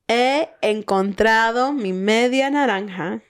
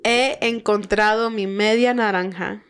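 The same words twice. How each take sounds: First: It is said slowly. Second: It is said at normal, faster speed.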